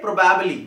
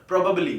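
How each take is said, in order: First: Probably as pro-BAB-lee; common mispronunciation. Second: Probably as PRO-buh-blee; short "buh" in the middle of probably; correct pronunciation. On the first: Teacher imitating students' error, probably with a full "bab". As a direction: open "bab" in the middle of probably. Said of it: "लेकिन ये गलत है". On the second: Teacher correcting students, probably with a reduced middle vowel. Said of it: "ये होना चाहिए". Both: Shown as a demonstration.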